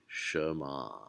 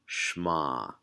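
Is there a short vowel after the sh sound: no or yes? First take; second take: yes; no. First: A short vowel is heard after the sh sound. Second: The first vowel is dropped, giving one compressed syllable. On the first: The speaker calls it right. "it needs to have at least a little bit of sound there" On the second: The speaker calls it wrong. "this gets really compressed, this uh, first syllable, so it almost sounds like shma"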